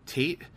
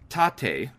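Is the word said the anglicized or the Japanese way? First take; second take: anglicized; Japanese. First: The word is said with an anglicized pronunciation. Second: The word is said with a Japanese pronunciation. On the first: The speaker calls it wrong. "I called it Tate. And apparently that was very wrong" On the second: The speaker calls it right. "Pronounced tate"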